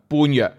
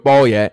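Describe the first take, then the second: First: The word is said as bun-yeuk. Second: The word is said as bo-ye. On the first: This is the plain everyday reading of the characters. "如果广东话咧就咁睇落去咧，应该系读做般若嘅般若" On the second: This is the customary Buddhist reading following the Sanskrit. "喺广东话嘅佛教里边译做波耶，读做波耶"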